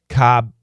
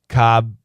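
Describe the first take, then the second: No difference in how they are said.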